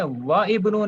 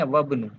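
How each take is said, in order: First: "व इब्नु" with the i sounded after wa, higher; unlinked wrong reading. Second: "वब्नु" as one word, wa straight into bnu; linked correct reading. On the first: Teacher warning how not to read it, "व इब्नु" with separate i. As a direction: keep wa and ibnu apart in "व इब्नु". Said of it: "नहीं पढ़ेंगे". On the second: Teacher giving students the right reading, "वब्नु" linked without the i. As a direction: drop the i and join "वब्नु". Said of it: "क्या पढ़ेंगे?". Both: Shown as a demonstration.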